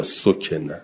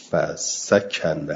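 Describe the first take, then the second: First: «سکن» with a rounded first vowel, so-ke-na; passive-verb vowels. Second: «فسکن» with open a vowels, fa-sakana; active-verb vowels. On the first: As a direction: say «سکن» as sokena, o then e. («سکن» با ضمهٔ سین و کسرهٔ کاف) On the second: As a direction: say «فسکن» slowly as fa-SA-KA-NA. («فسکن» با فتحهٔ سین و کاف) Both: Shown as a demonstration. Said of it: "یا سکن".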